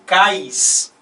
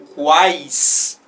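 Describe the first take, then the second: First: The word begins with a plain k sound. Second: The word begins with a kw sound. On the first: Only a diphthong is pronounced, not a triphthong. The speaker calls it wrong. "se eu falasse cais, né, e não quais" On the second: All three vowel sounds are pronounced, forming a triphthong. The speaker calls it right. "Como ele é pronunciado, então esse trio está perfeito"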